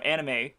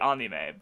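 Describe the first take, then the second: First: It is said with an English-style pronunciation. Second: It is said with a Japanese-style pronunciation. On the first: The speaker calls it wrong. "I also pronounce, you know, anime incorrectly" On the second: The speaker calls it right. "it would be anime"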